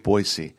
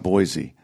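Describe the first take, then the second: First: The middle consonant is an s sound. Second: The middle consonant is a z sound. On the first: The speaker calls it right. "it is Boise" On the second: The speaker calls it wrong. "it's not Boise. There's no Z in Boise"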